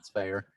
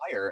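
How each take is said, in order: First: The name rhymes with the word fair. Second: The name rhymes with the word fire. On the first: This is how the name is really said. The speaker calls it right. "it's not. It's fair" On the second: This is how many people misread the name. The speaker calls it wrong. "A lot of people say"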